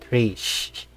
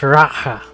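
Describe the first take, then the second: First: The word has one syllable ending in sh. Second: The word has two syllables with an h sound. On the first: The speaker calls it wrong. "not Rish" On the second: The speaker calls it right. "It's pronounced Raha"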